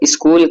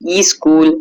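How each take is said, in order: First: The word starts directly with the sk cluster. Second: A vowel is added before the initial s. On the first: The speaker calls it right. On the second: The speaker calls it wrong.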